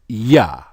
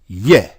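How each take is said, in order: First: The syllable is said with an 'ah' vowel. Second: The syllable is said with an 'eh' vowel. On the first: "not Yah" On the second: "they're telling you to pronounce it Yeh"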